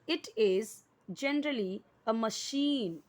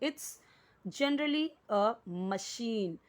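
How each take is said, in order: First: 'It is' is said as two full words. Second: 'It is' is contracted into one syllable.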